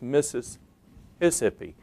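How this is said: The word is broken up with hiccup-like breaks. "might come across as ... a hiccup"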